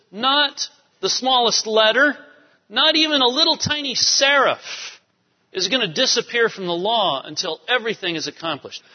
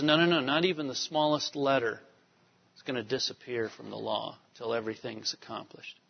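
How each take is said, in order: First: Emphatic quote. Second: Softer, trailing quote of Jesus; quiet quote. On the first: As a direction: preach it with full emphasis. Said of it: "And Jesus says". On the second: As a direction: let it drop away softly. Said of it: "Jesus says". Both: Retold or imitated.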